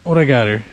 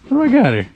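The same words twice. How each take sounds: First: Said in the usual way. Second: Higher, curious lift on got; surprised. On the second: Real, not acted. Angler wondering what took his bait, surprised. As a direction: pitch it up in surprise.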